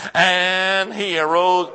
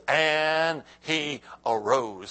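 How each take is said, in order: First: Loud, slow proclamation; shout. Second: Said in the usual way. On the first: Shown as a demonstration. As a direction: shout it out, stretching the words. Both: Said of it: "Come on, shout that, please".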